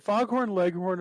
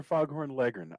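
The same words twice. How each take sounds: First: "Leghorn" said as LEG-HORN, both parts clear; "Leghorn" as two full words, leg and horn; full -horn ending. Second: "Leghorn" said as LEG-ern, no h; "Leghorn" with a weak "-ern" in place of "horn"; reduced LEG-ern ending. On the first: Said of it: "Is it Foghorn Leghorn or Foghorn Leghorn". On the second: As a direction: swallow the end of "Leghorn" to "leggern". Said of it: "or Foghorn Leghorn". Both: Shown as a demonstration.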